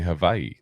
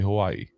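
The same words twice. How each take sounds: First: The name is pronounced the local Hawaiian way. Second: The name is pronounced the usual mainland way. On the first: This is how people in the place say it. "that's how they say it there. They say Hawaii" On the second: This is how people elsewhere say it. "They don't say Hawaii"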